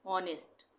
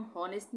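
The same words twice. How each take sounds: First: "ऑनेस्ट" starting on the vowel; silent h. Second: "हॉनेस्ट" with the h sounded; wrong pronunciation. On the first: Teacher models the right reading, "ऑनेस्ट" without h. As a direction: drop the h from "ऑनेस्ट". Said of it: "एच silent है". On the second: Teacher shows the reading to avoid, h voiced in "हॉनेस्ट". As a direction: start "हॉनेस्ट" on a breathed h. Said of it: "हॉनेस्ट नहीं बोलेंगे". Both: Shown as a demonstration.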